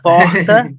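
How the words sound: It is said with a Rio accent.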